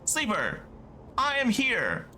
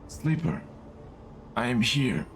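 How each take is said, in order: First: Spoken in a different put-on character voice. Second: Spoken in a put-on old man's voice. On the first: "It's still Vendo voice" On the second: "I'm going to give them like an old man voice"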